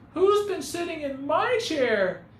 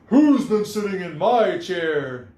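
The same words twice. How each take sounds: First: It is said in a tiny, small voice. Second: It is said in a big, booming voice. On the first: "he cried in his wee little voice" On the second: "he boomed in his great big voice"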